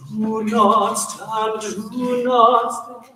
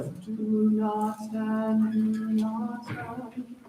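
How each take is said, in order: First: Slow, louder, stress on not; intentional. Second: Said in the usual way. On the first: Shown as a demonstration. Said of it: "a little more intentional". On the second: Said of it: "You'll have".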